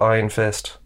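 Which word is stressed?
Fist. The stress is on the word Fist. The speaker calls it right. "instead of Iron Fist"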